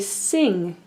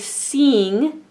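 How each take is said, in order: First: The vowel is short, as in 'sit'. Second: The vowel sounds like the long name 'eye'. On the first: The speaker calls it right. "we say sing, I. So this guy says its short name" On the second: The speaker calls it wrong. "we don't say sing"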